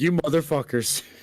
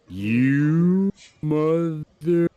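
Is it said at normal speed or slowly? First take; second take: normal speed; slowly. First: It is said at normal speed. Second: It is said very slowly.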